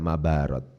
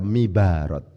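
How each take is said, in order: First: The first vowel is an a sound. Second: The first vowel is an i sound. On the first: "Kenapa Ustadz kok tidak dibaca mabarat?" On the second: "Kenapa kok tidak dibaca mibarat?"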